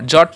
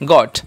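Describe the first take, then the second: First: The word starts with a j sound. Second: The word starts with a hard g sound. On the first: The speaker calls it wrong. "জট নয়" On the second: The speaker calls it right. "এটা হবে গট"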